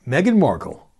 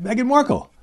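First: Said in the usual way. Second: Name pitched high with theatrical disbelief; mock astonishment. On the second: Real, not acted. Host telling listeners the unlikely candidate, mock astonishment. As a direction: say the name like it's unbelievable news. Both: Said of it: "I don't even have to identify her".

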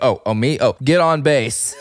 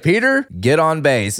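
First: Awkward unsure reply. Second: A lightly voiced confident GM, firm and quick; confident boss. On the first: Retold or imitated. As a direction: caught off guard, fumbling the answer. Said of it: "where he doesn't know to speak". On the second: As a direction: point at Peter and give the order. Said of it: "He's like".

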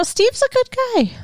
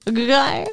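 First: High, sweet mock praise; mock sincere. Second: Rising, disbelieving echo; incredulous question. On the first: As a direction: sing his praises mockingly. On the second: Real, not acted. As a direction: ask it like you can't believe it. Questions the praise.

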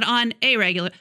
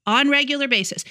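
First: Said in the usual way. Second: "on regular basis" said deliberately, with no "a"; missing article pointed out. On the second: Shown as a demonstration. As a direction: run "on" straight into "regular", quoting the mistake. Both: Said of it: "Not on a regular".

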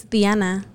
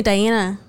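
First: "Diana" as DYAH-nah, with Spanish vowels; Spanish pronunciation. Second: "Diana" as die-AN-uh; English pronunciation. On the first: Telling her co-host her real name, Spanish pronunciation. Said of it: "My name isn't Diana". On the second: Showing what everybody calls her, English pronunciation. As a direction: say "Diana" with an American long I. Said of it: "everybody calls me Diana". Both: Shown as a demonstration.

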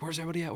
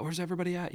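First: High, frantic cartoon kid; panicked cartoon voice. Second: Even higher frantic cartoon kid; panicked cartoon voice. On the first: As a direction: call out lost and panicking. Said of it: "somebody has their helmet covers their eyes". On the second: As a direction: call out lost, rising panic.

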